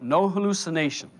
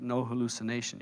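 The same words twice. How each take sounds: First: Lightly acted echo of the voice; doubter echoing. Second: Low, soft, matter-of-fact pronouncement; inner divine voice. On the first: Listener repeating the voice's words, mildly insistent. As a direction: repeat it back aloud, a touch insistent. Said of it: "You go". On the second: Acted. Divine voice correcting a doubter, low and quiet. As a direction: state it quietly, pitched down. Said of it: "The voice says".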